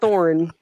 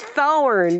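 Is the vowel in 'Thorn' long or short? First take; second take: short; long. First: The vowel is short and compressed. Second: The vowel is drawn out long. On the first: The speaker calls it wrong. "Not Thorn" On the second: The speaker calls it right. "You got to uncompress the vowel. Let it have a whole length"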